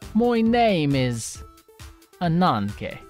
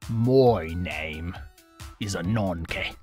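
First: A flamboyant Russian-accented voice is used. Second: A deep Russian-accented voice is used.

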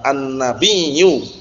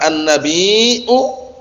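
First: The word ends with a doubled y-sound before u. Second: The word has a glottal catch before the final u. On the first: This is the form after the two letters are merged. "digabungkan dengan ya yang pertama" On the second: This is the original form of the word. "Aslinya apa?"

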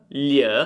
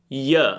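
First: It starts with a palatal 'ly'-like sound. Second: It starts with a plain 'y' sound. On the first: "il suono della G L" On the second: "prova a dire y"

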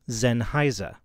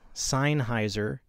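First: The name is said with German pronunciation. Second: The name is said in a non-German way. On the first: The speaker calls it right. "The proper German pronunciation is Sennheiser" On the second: The speaker calls it wrong. "Many people pronounce it Sennheiser or Sennheiser, but both of those are wrong"

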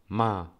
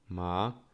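First: The syllable sounds sharp, like a command. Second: The pitch rises across the syllable. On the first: It means to scold. "czwarty ton, taki ja to nazywam rozkazujący" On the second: It means numb. "Drugi ton wznoszący"

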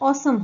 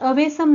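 First: It is said with no w sound: aw-sum. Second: It is said with a w sound: a-we-sum. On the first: The speaker calls it right. "तर ऑसम होतो" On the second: The speaker calls it wrong. "ह्याचा उच्चार अवेसम नाही होत"

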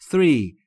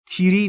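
First: It begins with a soft th sound. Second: It begins with a plain t sound. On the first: The speaker calls it right. "دقت بکنید three three" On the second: The speaker calls it wrong. "تیری نیست"

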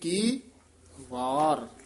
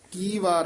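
First: A short break separates the two words. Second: The two words run together without a break. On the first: The speaker calls it right. "ਇੱਥੇ ਠਮਕ ਦੀ ਲਾ ਕੇ ਬੋਲਣਾ ਹੈ, ਵਾਰ ਨਖੇਰ ਕੇ ਪੜਨਾ" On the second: The speaker calls it wrong. "ਕੀ ਵਾਰ ਨਹੀਂ ਕਹਿਣਾ"

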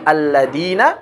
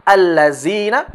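First: The middle consonant is a hard 'd' sound. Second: The middle consonant is a 'z' sound.

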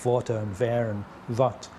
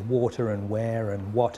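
First: It is said in a foreign-sounding accent. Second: It is said in a native-sounding English accent. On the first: This is how the person speaks after the injury. "They say water and where and what" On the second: This is how the person used to speak. "They might not say water and where and what anymore"

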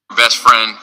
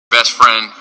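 The two takes are said the same way.

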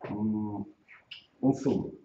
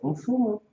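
First: The voice falls at the end, like a statement. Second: The voice rises at the end, like a question. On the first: The speaker is sure of what they want. The speaker calls it right. "Lo dices. Tú sabes lo que quieres" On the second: The speaker sounds unsure and doubtful. The speaker calls it wrong. "no se dice las cosas dudando"

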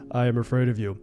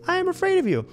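First: The voice is pitched deep and low. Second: The voice is pitched high and light. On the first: "do it in a deeper voice" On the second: "do it in a higher voice"

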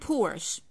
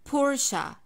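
First: The word ends without a weak 'uh' vowel. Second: The word ends with a weak 'uh' vowel. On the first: The speaker calls it wrong. "I'm not saying Porsche" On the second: The speaker calls it right. "I have to keep the schwa sound at the end"

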